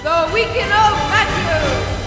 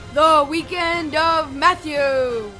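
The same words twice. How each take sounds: First: It is said faster and more intensely. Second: It is said at a calmer, steadier pace.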